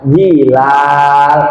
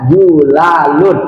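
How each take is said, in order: First: The first vowel is i. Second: The first vowel is u.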